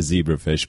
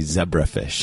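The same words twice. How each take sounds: First: It is said with an American pronunciation. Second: It is said with a British pronunciation.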